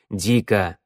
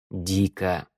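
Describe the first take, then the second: First: Cutting her off. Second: Soft, tired low sigh of a word; weary. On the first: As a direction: cut in firmly on «Дико». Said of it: "оборвал её змеевик". (резко обрывая) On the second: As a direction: say «Дико» softly, worn out. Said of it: "сказал устало змеевик". (устало, тихо) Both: A narrator's reading.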